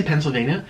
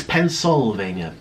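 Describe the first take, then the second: First: Said in the usual way. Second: Pennsylvania slowly, every syllable sounded; slow, careful Penn-syl-vania; corrected Pennsylvania. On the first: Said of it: "I say Pennsylvania". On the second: Shown as a demonstration. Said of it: "It's Pennsylvania".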